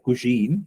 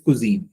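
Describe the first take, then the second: First: The middle consonant sounds like 'sh'. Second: The middle consonant sounds like 'z'. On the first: The speaker calls it wrong. "I found little sha sound in it. Uh, I- you said something like cuisine" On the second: The speaker calls it right. "So it's cuisine"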